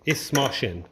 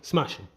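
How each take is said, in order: First: The phrase is said slowly, syllable by syllable. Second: The phrase is said quickly, run together as one word.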